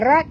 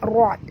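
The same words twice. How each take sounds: First: The r sound is thin and light. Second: The r sound is thick and heavy. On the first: The speaker calls it wrong. "bukan rat bunyi dia" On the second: The speaker calls it right. "Ra kena baca tebal"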